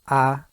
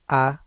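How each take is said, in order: First: The vowel starts with a hard, abrupt onset. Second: The same.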